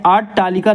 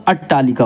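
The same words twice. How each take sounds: First: अट्टालिका with a long first aa, "aat-taalika"; wrong pronunciation. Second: अट्टालिका with short first a, "at-taalika"; correct pronunciation. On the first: Teacher rejecting a misspelt word, long-aa अट्टालिका. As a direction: lengthen the opening vowel of अट्टालिका. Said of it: "अट्टालिका नहीं होता". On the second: Teacher correcting the word, short-a अट्टालिका. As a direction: keep the opening vowel of अट्टालिका short. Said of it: "अट्टालिका होता है". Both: Shown as a demonstration.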